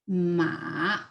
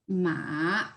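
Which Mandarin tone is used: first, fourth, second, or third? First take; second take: third; third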